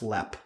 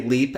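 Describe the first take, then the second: First: The vowel is a short 'e' sound. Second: The vowel is a long 'ee' sound. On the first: The speaker calls it right. "but it is pronounced lep" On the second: The speaker calls it wrong. "spelled as we would say, say leap"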